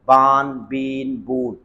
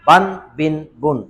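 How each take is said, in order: First: The vowels before the n are drawn out long. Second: The vowels before the n are kept short. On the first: The speaker calls it wrong. "ये गलत है।" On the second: The speaker calls it right. "इस तरह पढ़ें।"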